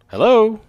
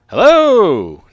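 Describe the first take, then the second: First: It is said at normal loudness. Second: It is yelled loudly.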